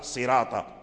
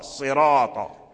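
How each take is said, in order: First: The r sound is thin and light. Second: The r sound is thick and heavy. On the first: The speaker calls it wrong. "لا هذا لحن" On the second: The speaker calls it right. "يفخم الراء، يفخمه معنى يفخمه يغلظه، يغلظ الراء"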